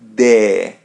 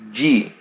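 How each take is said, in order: First: It ends in a clear e vowel. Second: It sounds like the letter name 'gee'. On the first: "so we pronounce it as E" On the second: "when we put it in a phrase, ... it would be G"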